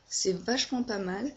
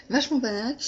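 First: Said in the usual way. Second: Vachement pas mal echoed higher and louder, teasing herself; amused self-mockery. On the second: Shown as a demonstration. Laughing at her own phrase to viewers, mock echo. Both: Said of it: "Ça veut rien dire ce que je viens de dire".

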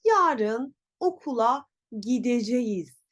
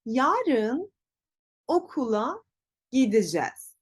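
First: Gideceğiz in full, gi-de-je-yiz; written form. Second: Gideceğiz as gi-di-jez; word by word, shorten gideceğiz to gidicez; spoken contraction. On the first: Teacher reads what is written, full gideceğiz. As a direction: read gideceğiz exactly as spelt. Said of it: "yazıyor". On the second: Teacher shows pronunciation, gideceğiz contracted to gidicez. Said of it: "Peki telaffuz nasıl olacak?". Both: Shown as a demonstration.

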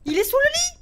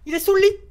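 First: Very high, loud, rising cry; panicked squeal. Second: Loud, jolted alarm; real fright, voice pushed louder. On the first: Repeats it in panic. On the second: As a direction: blurt it out loudly after a scare. Reporting monster under the bed. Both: Real, not acted.

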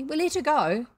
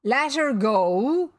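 First: Higher, louder, complacent sailor. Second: Loud, slow, incredulous question; outraged disbelief. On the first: Bosun tells captain of the prisoner, complacent. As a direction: report it as a job well done. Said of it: "Smee answered complacently". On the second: Captain hears his prisoner was released, outraged. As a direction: echo it back, drawn out in disbelief. Captain appalled by crew's news. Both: A narrator's reading.

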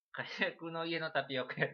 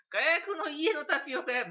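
First: Said in the usual way. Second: 火薬の家のタピオカ屋 said high, loud and slow through a laugh. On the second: Shown as a demonstration. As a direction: blurt 火薬の家のタピオカ屋 while cracking up. (笑いながら高く大きくゆっくり「火薬の家のタピオカ屋」) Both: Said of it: "別に火薬の家のタ-、タピオカ屋ではないからね".

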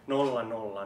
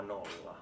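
First: Louder, punched zeros; loud count. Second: Much softer, dropped zero; quiet count. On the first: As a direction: bark the zeros out. (kovaääninen nolla, nolla) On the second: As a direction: let the zero fall away. (hiljainen nolla) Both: Acted. Rhythmic counting chant.

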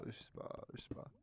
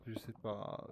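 First: Breathy whisper, no voice. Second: Said in the usual way. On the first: Real, not acted. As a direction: whisper it to yourself twice. Mumbling to self, unsure.

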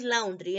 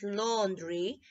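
First: The mistaken "laundry", first vowel as in "out"; "laundry" mispronounced as "laun-dree" on purpose; wrong pronunciation. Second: "laundry" said slowly as "lon-dree", first vowel as in "on"; the right "laundry" with an "aw" sound, said carefully; slow, model "laundry" for students to copy; correct pronunciation. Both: Shown as a demonstration. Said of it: "No es laundry, es laundry".

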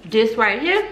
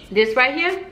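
Both takes have the same delivery.

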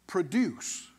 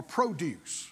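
First: Produce as the verb, stress on the second syllable: pruh-DUCE. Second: Produce as the noun, stress on the first syllable: PROH-duce. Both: Shown as a demonstration. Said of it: "as a verb or a noun".

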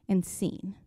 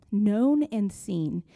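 First: Said in the usual way. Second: Known and seen said slowly, each word weighed; slow emphatic repeat. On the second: Shown as a demonstration. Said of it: "that truth hit me so deeply".

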